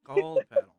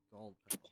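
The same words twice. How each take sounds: First: High, loud, rising "Gold petal?"; surprised question. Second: Said in the usual way. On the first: Acted. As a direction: ask "Gold petal?" in disbelief, pitch shooting up.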